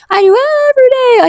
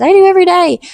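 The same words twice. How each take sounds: First: Much higher, impassioned; fervent repeat. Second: Emphatic, higher; earnest testimony. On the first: Testifying to viewers, much higher and fervent. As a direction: lift it high with fervor. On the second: Testifying to viewers about prayer, emphatic. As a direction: state it with conviction. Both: Shown as a demonstration.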